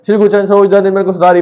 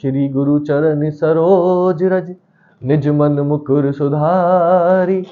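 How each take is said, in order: First: The line is recited at a fast speed. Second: The line is recited at a slow, relaxed speed. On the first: "मतलब speed में बोल दो" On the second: "आराम से ही बोल सकता हूं"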